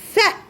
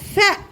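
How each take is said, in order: Both takes have the same delivery.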